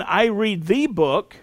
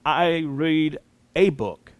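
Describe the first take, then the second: First: "the" given clear weight as the definite article; stress on the article. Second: Slower, "a" said with deliberate weight; stress on the article. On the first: Teacher contrasting articles, stressing "the". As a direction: lean on "the" to mark one specific book. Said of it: "which is definite". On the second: Teacher contrasting articles, slower weight on "a". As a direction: dwell on "a" to mark any book at all. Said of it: "which is indefinite". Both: Shown as a demonstration.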